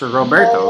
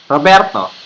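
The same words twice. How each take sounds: First: The R sound is smooth and soft. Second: The R sound is hard and strong. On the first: "But in the English pronunciation, it's Roberto" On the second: "In the Taglish pronunciation, the name is Roberto"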